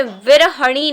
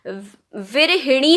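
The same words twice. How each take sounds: First: विरहणी said virhaṇī, with no i after h; विरहणी slowly, with the h sliding straight into ṇī; wrong form. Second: विरहिणी said very slowly as vi-ra-hi-ṇī, with a clear short i after h; विरहिणी drawn out, every syllable spelled out; correct form. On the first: Teacher warning students: wrong विरहणी, virhaṇī. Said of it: "नहीं होता". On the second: Teacher stressing the correct विरहिणी, slow and clear. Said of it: "होता है". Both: Shown as a demonstration.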